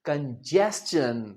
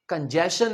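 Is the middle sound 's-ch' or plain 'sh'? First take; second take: s-ch; plain sh. First: The middle sound is 's' followed by 'ch'. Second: The middle sound is a plain 'sh'. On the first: The speaker calls it right. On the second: The speaker calls it wrong.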